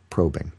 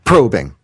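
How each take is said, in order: First: The word is said plainly and soberly. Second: The word is said with a suggestive, exaggerated tone. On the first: The topic is treated with sensitivity. The speaker calls it right. "I would say probing" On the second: The topic is treated as a joke. The speaker calls it wrong. "but not like probing"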